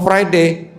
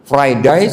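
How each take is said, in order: First: "Friday" with an English "day" ending; English pronunciation. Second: "Friday" with an Australian "die" ending; Australian pronunciation. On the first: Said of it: "Orang Inggris ngomongnya". ("Friday" logat Inggris, bunyi akhir "dei") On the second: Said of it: "Orang Australia ngomongnya apa?". ("Friday" logat Australia, bunyi akhir "dai") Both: Shown as a demonstration.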